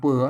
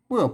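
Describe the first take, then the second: First: The syllable is said with a high tone. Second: The syllable is said with a falling tone. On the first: "เปื้อเสียงตีไหม" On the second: "ใส่ไม่โทเปื่อ"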